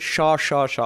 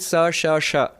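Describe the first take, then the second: First: The three syllables all have the same sound. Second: The three syllables have different hissing sounds. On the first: "In Bengali, they pronounce it ... All of them are the same pronunciation" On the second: "In Sanskrit"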